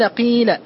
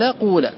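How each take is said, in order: First: The first vowel is a pure i sound. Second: The first vowel is a pure u sound. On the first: The speaker calls it right. "الوجه الأول إخلاص الكسر" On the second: The speaker calls it wrong. "اللغة الثالثة هي إخلاص الضم"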